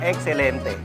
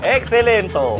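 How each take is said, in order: First: The word ends with an 'e' vowel. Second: The word ends with an 'o' vowel. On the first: The speaker calls it right. "correct na" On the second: The speaker calls it wrong. "Namali lang ng isang bawel"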